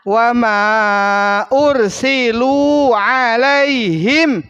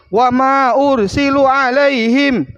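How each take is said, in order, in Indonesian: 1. Vokal pada ursilu dibaca panjang. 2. Vokal pada ursilu dibaca pendek. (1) "Padahal di situ" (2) "wa ma ursilunya dipendekin lagi"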